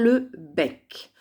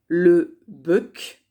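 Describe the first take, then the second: First: The vowel in bec is an open è. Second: The vowel in bec is not an open è. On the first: The speaker calls it right. "mais on va dire" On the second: The speaker calls it wrong. "On ne va pas dire"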